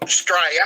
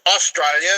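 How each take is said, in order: First: "Australia" clipped to "Straya"; Aussie pronunciation. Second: Said in the usual way. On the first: Shown as a demonstration. Aussie teaching the local name, "Australia" shortened to "Straya". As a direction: drop the first syllable of "Australia", saying "Stray-ya". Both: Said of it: "us Aussies call it Australia".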